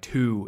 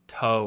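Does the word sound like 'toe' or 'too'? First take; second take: too; toe. First: The vowel is a close oo sound. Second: The vowel is an open oh sound. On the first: The speaker calls it wrong. "you don't want to say like two" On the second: The speaker calls it right. "It has to be like, I don't know, like toe"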